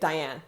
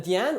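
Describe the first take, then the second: First: The name is said with an English pronunciation. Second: The name is said with a French pronunciation. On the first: "ou en anglais" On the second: "je m'appelle Diane"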